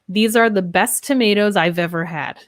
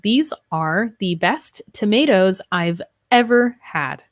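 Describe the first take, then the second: First: The words run together with linked sounds. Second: Each word is said separately without linking. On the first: "So this sentence" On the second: "Notice how that sounds different than"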